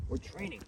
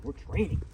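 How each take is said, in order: First: Quieter repeat of the dog's thought; dog's thoughts, softer. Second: Eager voicing of the dog's thoughts; dog's imagined thoughts. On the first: Retold or imitated. Trainer voicing her dog's thoughts again, quieter. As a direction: let the repeat fall softer. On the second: Trainer voicing what her dog thinks, eager. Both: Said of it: "He's like".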